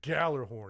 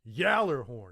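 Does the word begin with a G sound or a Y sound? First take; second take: G sound; Y sound. First: The word begins with a hard G sound. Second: The word begins with a Y sound. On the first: The speaker calls it wrong. "it's not like us Americans would say Gallerhorn" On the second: The speaker calls it right. "It's it's Yallerhorn"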